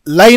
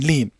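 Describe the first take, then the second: First: The vowel sounds like 'ai'. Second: The vowel sounds like a long 'ee'. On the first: The speaker calls it wrong. "लाइन नहीं" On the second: The speaker calls it right. "लीन लीन"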